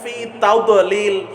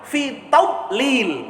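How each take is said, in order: First: The d sound is released with a bounce. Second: The d sound is said without a bounce. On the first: The speaker calls it wrong. "Doknya itu mantul" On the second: The speaker calls it right. "Itu jangan mantul, nggak ada kokolahnya kok"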